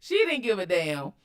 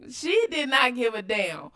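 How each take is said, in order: First: Said in the usual way. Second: "did not" said as two separate, emphatic words; stress on DID NOT. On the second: Real, not acted. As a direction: spell out the negation firmly on "did not". Restates with emphatic full negation.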